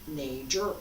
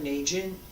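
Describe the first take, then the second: First: It is said with a regional Henan accent. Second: It is said with a standard pronunciation. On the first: The speaker calls it wrong. "I have a little bit of a accent from Henan" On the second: The speaker calls it right. "It's more correct"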